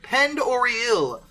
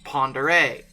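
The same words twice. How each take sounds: First: The name is read out as English spelling. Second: The name is said with French pronunciation. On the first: The speaker calls it wrong. "calling it Lake Pend Oreille like an idiot... phonetically, that's what it looks like" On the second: The speaker calls it right. "it's French and it's pronounced Pend Oreille"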